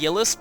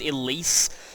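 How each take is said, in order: First: The name starts with a y sound, like Yillis. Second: The name starts with a vowel, like Elise. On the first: This is how the speaker always said it. "I always pronounced it Yillis" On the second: This is how everyone else said it. "everyone said that it was Elise"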